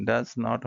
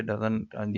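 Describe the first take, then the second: First: "does not" as two full words; careful "does not", not contracted; full form. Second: "doesn't" run together as one word; spoken-English "doesn't", quick and contracted; casual "doesn't" of everyday speech; contracted form. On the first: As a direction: say "does not" uncontracted, both words clear. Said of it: "does not होना चाहिए". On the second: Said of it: "ये spoken English है भाई". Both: Shown as a demonstration.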